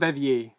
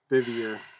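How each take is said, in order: First: It is pronounced the French way. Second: It is pronounced like the word beaver. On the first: The speaker calls it wrong. "It's not pronounced like French" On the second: The speaker calls it right. "Like beaver"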